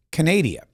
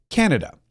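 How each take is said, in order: First: Canada said as Ca-nay-dee-a, stress on the second syllable; Jean-Pierre's mispronunciation. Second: Said in the usual way. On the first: Retold or imitated. Mocking the press secretary's garbled Canada, said as Ca-nay-dee-a. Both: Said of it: "or as Karine Jean-Pierre refers to it".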